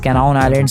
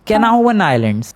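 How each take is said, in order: First: The name ends in 'nown' with no 'w' sound. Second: The name ends in 'nawan' with a 'w' sound. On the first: The speaker calls it wrong. "मैं पिछली बार उस island का नाम ... बोल रहा था, but नहीं" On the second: The speaker calls it right. "उसका रियल प्रोनाउंसिएशन है"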